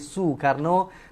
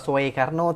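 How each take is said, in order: First: The first vowel sounds like 'oo'. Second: The first vowel sounds like 'oh'. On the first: The speaker calls it right. "tapi Soekarno mengikut sistem ejaan Belanda" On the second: The speaker calls it wrong. "Bukan dibaca sebagai"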